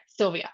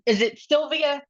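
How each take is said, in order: First: Sylvia settled with a falling tune; confident statement. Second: Sylvia asked with a rising tune; unsure question. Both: Shown as a demonstration. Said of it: "am I saying it right if I say Sylvia?".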